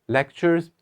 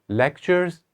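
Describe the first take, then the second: Both takes have the same delivery.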